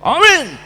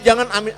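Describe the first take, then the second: First: It is said with lively, high energy. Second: It is said limply, with low energy.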